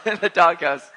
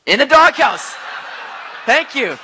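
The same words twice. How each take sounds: First: Laughing repeat. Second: Loud joking call-out. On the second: Joke about his wife. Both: Real, not acted.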